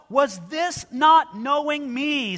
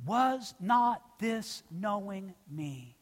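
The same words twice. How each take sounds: First: Preacher booming the Lord's question; ringing proclamation. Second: Slow, softer, each word weighed; preacher quietly stressing a key phrase. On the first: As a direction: call it out slowly from the pulpit. Climax of the scripture reading. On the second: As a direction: let the phrase sink in slowly. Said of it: "Please note that phrase". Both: Acted.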